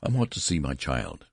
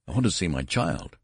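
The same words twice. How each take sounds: First: Said in the usual way. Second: Mild, contained near-shriek; understated cry of desperation. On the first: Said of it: "said Mister Button". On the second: A narrator's reading. Desperate father demanding to see his child, almost shrieking. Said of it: "Mister Button almost shrieked".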